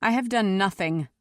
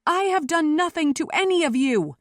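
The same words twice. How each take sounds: First: Controlled, understated denial; cool reply. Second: High, loud protest; shouted denial. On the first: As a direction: answer coolly, without raising the voice. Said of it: "Seneth replied coolly". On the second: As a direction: shout to be heard above a roaring crowd. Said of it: "Seneth shouted". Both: A narrator's reading.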